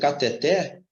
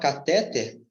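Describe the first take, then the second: First: The stress is on the last syllable. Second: The stress is on the second syllable. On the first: The speaker calls it right. "ela é uma palavra oxítona" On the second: The speaker calls it wrong. "você tem uma paróxia terminada em R"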